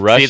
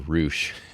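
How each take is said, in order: First: The vowel is a short 'uh' sound. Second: The vowel is a long 'oo' sound. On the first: The speaker calls it right. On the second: The speaker calls it wrong.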